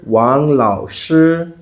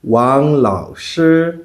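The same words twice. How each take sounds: First: Wang Lao Shi said slowly in Mandarin tones; Mandarin name. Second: Wang Lao Shi repeated slowly, each syllable toned; Mandarin name repeated. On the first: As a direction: Wang Lao Shi with a level then rising then falling tone, spoken slowly. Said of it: "I am your teacher". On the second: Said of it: "that's Teacher Wang in Chinese". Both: Shown as a demonstration.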